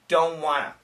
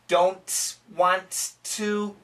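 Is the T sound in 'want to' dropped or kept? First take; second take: dropped; kept. First: The T sounds are dropped, giving 'wanna'. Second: The T sounds in 'want to' are pronounced. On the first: The speaker calls it right. "this N will cancel the T" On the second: The speaker calls it wrong.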